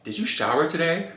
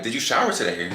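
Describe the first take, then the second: First: High, rising blurted question. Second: Level, deliberate question, not taking it back; standing on it. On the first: Woman to date after smelling him, blurting. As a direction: let the question slip out high before thinking. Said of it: "I just blurt out". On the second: Woman repeating shower question to date, standing firm. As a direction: ask it squarely and own it. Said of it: "just stand on it". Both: Retold or imitated.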